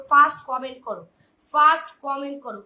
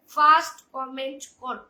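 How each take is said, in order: First: Loud urgent call to the chat; calling out loudly. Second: first comment করো said slower and loud, each word leaned on; slow emphatic repeat. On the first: Host urging live viewers to comment first, loud call. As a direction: shout the order to the viewers. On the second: Host repeating her order to the chat, slow and emphatic. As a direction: spell it out slowly like a reminder. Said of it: "কি বললাম?". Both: Real, not acted.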